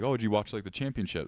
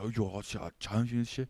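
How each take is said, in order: First: Said in the usual way. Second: Put-on Chinese accent. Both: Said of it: "that's exactly how they talked".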